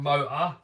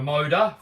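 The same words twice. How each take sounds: First: The middle T sound is dropped. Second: The middle T sound is heard. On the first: This is how people around London say it. "we do drop the T's and call it like a motor" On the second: This is how Americans say it. "for you Americans"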